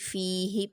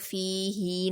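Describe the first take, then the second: First: The final vowel is said quickly and short. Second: The final vowel is drawn out long. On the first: The speaker calls it right. "बल्कि फी ही पढ़ेंगे" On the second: The speaker calls it wrong. "हम इसको फी ही नहीं पढ़ेंगे"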